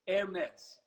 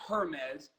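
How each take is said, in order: First: The word begins with an 'air' sound. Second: The word does not begin with an 'air' sound. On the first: The speaker calls it right. "Air like, like the air we breathe, Mez" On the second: The speaker calls it wrong. "It's not Hermes"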